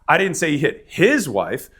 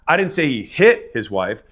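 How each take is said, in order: First: The stress is on the word 'his'. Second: The stress is on the word 'hit'.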